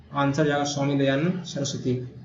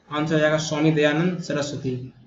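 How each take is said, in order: Both takes have the same delivery.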